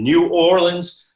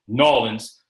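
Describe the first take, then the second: First: The name is said the ordinary standard way. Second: The name is said the compressed local way.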